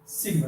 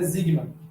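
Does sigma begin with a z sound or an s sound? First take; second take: s; z. First: It begins with a hissing s sound. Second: It begins with a buzzing z sound. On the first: The speaker calls it right. "Sempre com esse som de sigma" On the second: The speaker calls it wrong. "não é sigma"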